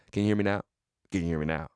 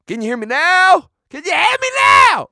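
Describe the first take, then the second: First: Low, soft question; quiet phone check. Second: High, building phone yell; mock exasperated shout. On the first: Pretend. Host on a pretend call, softly testing. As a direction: murmur into the line, testing it. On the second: Host on a pretend call, yelling to be heard. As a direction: scream down a dead line.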